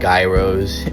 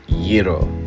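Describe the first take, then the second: First: It does not start like 'euros' with a y-sound. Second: It sounds like 'euros' with a y-like start. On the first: The speaker calls it wrong. "I continuously call them gyros, and that is not the correct pronunciation" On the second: The speaker calls it right. "The correct pronunciation of this food is called gyro. Kind of like the currency euros, but you know, with more of a y to it"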